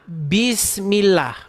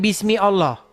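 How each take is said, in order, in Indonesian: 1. Kedua kata menyambung tanpa vokal pemisah. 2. Allah diucapkan terpisah, dengan vokal pertamanya. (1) "Ini kalau dibaca Bismillah" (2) "bukan Bismi Allah"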